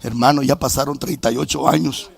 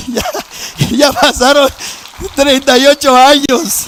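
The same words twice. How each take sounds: First: Said in the usual way. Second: Higher, louder, slower, each word hammered; preacher's loud slow repeat; emphatic repeat. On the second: Real, not acted. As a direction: drive the years home to the crowd.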